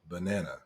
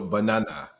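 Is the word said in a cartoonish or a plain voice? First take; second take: plain; cartoonish. First: It is said in a plain, ordinary voice. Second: It is said in a cartoonish, Minion-like voice. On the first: This is the speaker's own way of saying it. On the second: This imitates how the other person says it.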